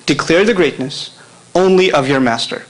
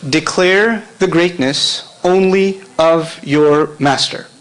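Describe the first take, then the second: First: Said in the usual way. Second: Slow and deliberate for note-takers; slow dictation. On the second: Shown as a demonstration. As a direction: spell it out slowly so they can write. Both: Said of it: "write this in English".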